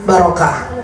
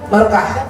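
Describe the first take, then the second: First: The word is said at a normal pace. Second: The word is said more quickly.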